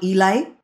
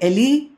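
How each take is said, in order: First: The name ends with an 'ay' sound. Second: The name ends with an 'ee' sound. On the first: The speaker calls it wrong. "not Elay" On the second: The speaker calls it right. "from the Hebrew, we say Ellie"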